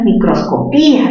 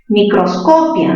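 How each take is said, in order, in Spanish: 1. El acento está en la sílaba pi. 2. El acento está en la sílaba co. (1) "la cerrada con mayor fuerza de voz" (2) "mayor fuerza ¿dónde? En co"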